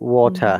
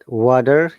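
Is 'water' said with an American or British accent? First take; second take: British; American. First: It has a crisp T sound, British style. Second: It has a flapped, D-like T, American style. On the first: "in British pronunciation, the distinguished sounds are T and letter T and letter R" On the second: "But water is American pronunciation"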